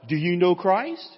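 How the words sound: It is said with a questioning tune. The speaker is asking for information. "If it's a question mark"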